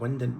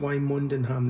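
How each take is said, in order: First: It is said shortened to two syllables. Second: It is said as spelled, with three syllables. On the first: "they pronounce it Windon, which is wrong" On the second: "they don't pronounce it Wymondham"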